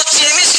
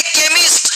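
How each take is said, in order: First: चेमिस्ट opening with a ch sound; mistaken CH sound. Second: केमिस्ट opening with a hard k; correct K sound. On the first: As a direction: say चेमिस्ट as "che-mist". (चेमिस्ट में पहली ध्वनि "च") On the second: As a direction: say केमिस्ट as "ke-mist". (केमिस्ट में पहली ध्वनि "क") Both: Shown as a demonstration. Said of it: "इसको चेमिस्ट नहीं पढ़ेंगे".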